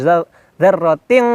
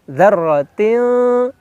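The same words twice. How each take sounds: First: The final n is a pure ng sound. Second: The final n is a soft nasal hum. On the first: The speaker calls it wrong. "bukan dzarratin, bukan ang, tidak murni ang" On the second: The speaker calls it right. "Sehingga hukumnya ikhfa, ya, dengung"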